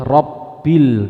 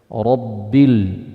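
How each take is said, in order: First: The r is pronounced light and thin. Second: The r is pronounced heavy and thick. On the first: The speaker calls it wrong. "nggak boleh" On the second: The speaker calls it right. "ro ketika berharokat fathah di situ harus dibaca tafkhim"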